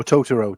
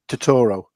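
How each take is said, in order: First: Totoro said as TOH-tuh-roh; stress on first syllable. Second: Totoro said as tuh-TOR-oh; stress on second syllable. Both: Shown as a demonstration. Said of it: "depending on how you say it".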